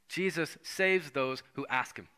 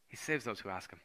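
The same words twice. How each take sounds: First: Saves drawn out and slower; stress on saves. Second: Hushed, settling repeat; soft echo. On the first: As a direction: lean on saves, slowly. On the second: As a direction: lower and softer repeat. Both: Shown as a demonstration.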